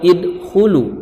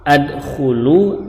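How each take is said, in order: First: The word begins with the vowel i. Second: The word begins with the vowel a.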